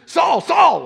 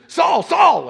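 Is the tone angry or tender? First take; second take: angry; angry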